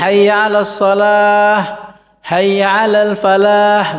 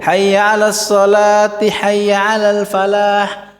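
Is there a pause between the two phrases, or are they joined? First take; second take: pause; joined. First: The phrases are separated by a stop. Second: The phrases run together without a stop.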